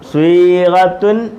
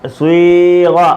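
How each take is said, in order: First: The word ends with a full '-tun' ending. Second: The word ends at '-ga' with no final ending. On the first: The reading continues without stopping. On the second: The reading stops on this word.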